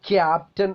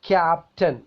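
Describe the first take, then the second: The two takes are said the same way.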